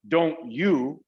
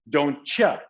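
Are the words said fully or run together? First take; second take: fully; run together. First: Each word is said separately, with a clear T. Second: The T and Y merge into a cha sound. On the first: "instead of don't you" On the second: "it's don't cha"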